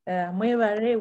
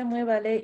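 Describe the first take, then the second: First: The last consonant is an R sound. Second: The last consonant is an L sound. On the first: "we say mwebale with an R" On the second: "In Luganda, we say mwebale"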